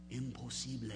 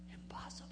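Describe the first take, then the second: First: Said in the usual way. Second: Whispered. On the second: Acted. Jesus' verdict, repeated.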